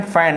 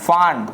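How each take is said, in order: First: फैन with a front "ae" vowel; short-a pronunciation. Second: फान with an open "aa" vowel; wrong long-aa reading. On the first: Teacher reading F-A-N for students, correct vowel. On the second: Teacher showing the wrong reading, aa vowel. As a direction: say फान as the mistaken aa version. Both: Shown as a demonstration. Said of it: "फान हमारा बिल्कुल गलत".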